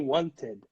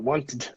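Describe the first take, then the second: First: The ending is said as an extra syllable. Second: The ending is clipped with no extra syllable. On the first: The speaker calls it right. "The natural way would be wanted" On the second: The speaker calls it wrong. "It's even hard to say wanted or wanted. It's difficult"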